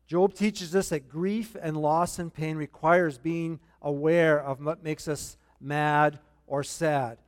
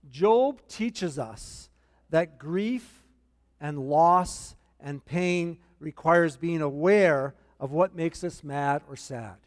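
First: Said in the usual way. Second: Slow, deliberate note-taking pace; unhurried, word by word for the notes; slow dictation. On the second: Shown as a demonstration. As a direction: spell it out slowly so they can write it down. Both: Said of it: "This is in your notes".

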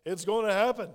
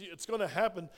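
First: "It's gonna happen" said louder, landing hard on "happen"; emphatic repeat. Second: Said in the usual way. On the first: Shown as a demonstration. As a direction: drive "happen" home to the church. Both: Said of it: "Church, guess what?".

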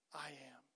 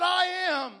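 First: A low whispered I am, held back before the climb; hushed whisper. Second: Higher and louder, a proclaimed I am; called out. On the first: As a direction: breathe it out in a whisper, almost nothing. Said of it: "he cries out". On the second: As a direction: ring out I am to the whole church. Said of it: "he's calling out". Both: Acted.

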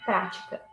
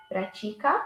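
First: Prática stressed on an open first "prá"; stress on first syllable. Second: Pratica stressed on the middle "ti"; stress on second syllable. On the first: Teacher showing the accent, "prática" stressed on PRÁ. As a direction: say "prática" as PRA-ti-ca. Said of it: "it gives a stress for the letter A". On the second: Teacher contrasting verb and noun, "pratica" stressed on TI. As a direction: say "pratica" as pra-TI-ca. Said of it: "it makes it sound a little more open". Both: Shown as a demonstration.

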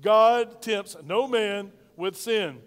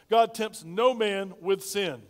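First: Slow and loud, leading the congregation; booming unison with the church; loud call-and-response. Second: Each word spaced out slowly; slow deliberate model line; slow emphatic statement. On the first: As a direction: say it big and slow so everyone joins in. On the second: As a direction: lay it down slowly, word by word, for them to repeat. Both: Shown as a demonstration. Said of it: "Say that with me".

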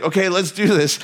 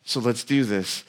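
First: A touch brighter and bolder; gung-ho go-for-it; Peter pumped up. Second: Softer and lower, calm encouragement; gentle Jesus. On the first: Peter psyching himself up, mild eager burst. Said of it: "crazy courage enough to". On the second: Jesus calmly urging Peter out, soft and low. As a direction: quietly say let's do this. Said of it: "Jesus is like". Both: Retold or imitated.

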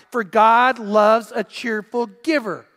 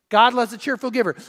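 First: Slow, loud, stress on "God"; emphatic verse. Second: Said in the usual way. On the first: Real, not acted. Preacher reading the key verse, slow and emphatic. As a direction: lean on "God" slowly.

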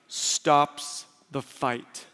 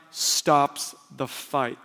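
The two takes are said the same way.

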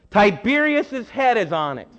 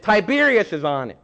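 First: Higher, louder call from the crowd; hollered from the crowd. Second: Said in the usual way. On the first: Retold or imitated. A man in the crowd hollering the answer to Jesus. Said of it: "I'm sure he didn't say it like that". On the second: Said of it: "he didn't say it like that".

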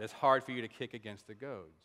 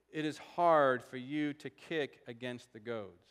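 First: Lower, matter-of-fact echo of the saying; unceremonious, dropped-pitch quote from a confused listener; puzzled repetition. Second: Slow, weighty scripture quote; measured voice from heaven, every word given room; solemn quotation. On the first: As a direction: repeat it low and quicker, as if baffled. Baffled hearer repeats the saying. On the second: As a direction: draw the saying out slowly and deliberately. Solemn quote of the strange saying. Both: Acted.

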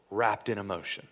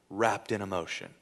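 The two takes are said the same way.

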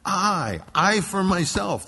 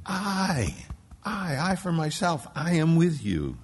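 First: The word "I" repeated and hit hard, slow and loud; stress on I. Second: "I, I, I for myself" with each "I" raised and punched; stress on I. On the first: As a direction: lean on "I", "I for myself" drawn out. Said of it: "it's emphatic there". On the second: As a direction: stack the "I" words, loud and high. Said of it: "he's trying to make that point". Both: Shown as a demonstration.

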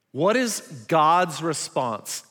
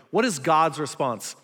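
First: "is" drawn out and leaned on, slowly; slow stress on is. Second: "what" punched at the start; stress on what. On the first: Preacher asks the crowd, stressing "is". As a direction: lean on "is" in "What is God's response?". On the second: Preacher repeats the question, stressing "what". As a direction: hit "what" and let the rest fall. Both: Shown as a demonstration.

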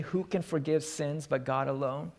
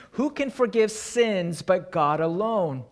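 First: Said in the usual way. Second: Outraged exclamation. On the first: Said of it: "is there anything wrong with what the scribes say". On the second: Retold or imitated. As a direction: hurl the question like an offended scribe. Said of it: "They exclaim in verse seven".

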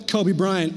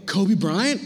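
First: Said in the usual way. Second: KOBE BRYANT as a question, rising on Bryant; surprised check on KOBE BRYANT, ending upward; questioning echo. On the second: Retold or imitated. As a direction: echo the name KOBE BRYANT back, lifting the end. Boys question the name back.

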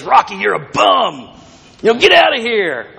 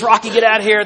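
First: A mild stab at Mickey's Hollywood trainer voice; half-hearted impression of the old trainer yelling; Mickey's gruff accent. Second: Higher, lightly voiced old trainer shouting him out; a mild mock of the trainer kicking Rocky out; Mickey again, trying the accent. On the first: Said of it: "I wish I could do Mickey's accent". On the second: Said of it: "But he says".

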